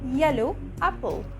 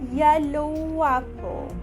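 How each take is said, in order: First: The two words are split apart. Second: The words are joined with a W sound. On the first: The speaker calls it wrong. "We won't say yellow apple" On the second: The speaker calls it right. "We'll say yellow apple, An exaggerated W sound"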